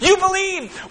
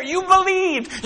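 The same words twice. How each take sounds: First: "You believed." with the weight on "You"; proud "You believed." punching "You"; stress on you. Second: Very slow, drawn-out "You believed."; slow tender "You believed." as proud affirmation; slow praise. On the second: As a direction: stretch "You believed." out, savouring it. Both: Acted. God praising the faithful.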